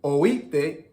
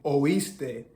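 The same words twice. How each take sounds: First: Oíste with the s dropped, sounding like oíte; Dominican pronunciation. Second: Said in the usual way. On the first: Shown as a demonstration. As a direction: swallow the s in oíste, Dominican style. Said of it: "why Dominicans may say things". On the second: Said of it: "instead of saying".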